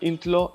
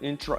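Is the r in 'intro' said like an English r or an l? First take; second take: l; English r. First: The r sound is said like an l. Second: The r sound is said like an English r. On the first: The speaker calls it wrong. "you might say something like intlo" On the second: The speaker calls it right. "like an English R"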